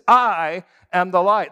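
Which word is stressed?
am. The word am carries the main stress. He truly is the light by his very essence. "In other words, he is equal to the light. It is what he says he is"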